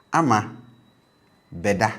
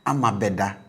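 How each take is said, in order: First: "ama beda" with be low, ingressive prefix. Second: "Ama beda" with be high, future marker. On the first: Teacher contrasts "ama beda" with a low be. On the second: Teacher contrasts "Ama beda" with a high be. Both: Shown as a demonstration. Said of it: "Ama beda as against".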